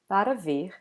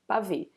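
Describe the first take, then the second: First: Every syllable is pronounced in full. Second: The first vowel and the r sounds are dropped. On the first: It is the formal form. "formally it would be para ver" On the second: It is the most informal form. "some people even eat uh, this R"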